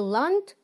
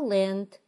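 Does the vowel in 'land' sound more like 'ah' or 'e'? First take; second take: ah; e. First: The vowel sounds like an open 'ah'. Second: The vowel sounds close to an 'e'. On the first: The speaker calls it wrong. "Не land" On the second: The speaker calls it right. "Буква A в закрытом ударном слоге чаще всего читается E"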